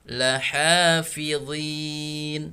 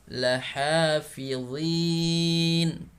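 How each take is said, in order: No difference in how they are said.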